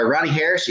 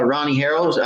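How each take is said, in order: First: Said in the usual way. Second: Harrells said as HAIR-ulls, a slip; misread name. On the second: Real, not acted. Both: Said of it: "excuse me".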